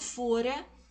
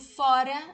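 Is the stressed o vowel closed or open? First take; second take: closed; open. First: The stressed o is a closed vowel. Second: The stressed o is an open vowel. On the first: It is a past form of the verb to be. "aqui eu falo com o som fechado" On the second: It means outside. "aqui eu falo com o som aberto"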